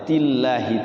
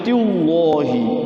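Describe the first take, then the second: First: The L is pronounced thin and light. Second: The L is pronounced thick and heavy. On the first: The speaker calls it right. "tillahi tipis" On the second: The speaker calls it wrong. "Kalau dibaca tafhim jadi tillahi ya, kurang tepat ya"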